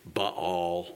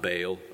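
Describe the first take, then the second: First: It does not sound like the word bale. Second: It sounds like the word bale. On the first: The speaker calls it right. "It's Baal" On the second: The speaker calls it wrong. "it's not Baal. A Baal is like a bale of hay"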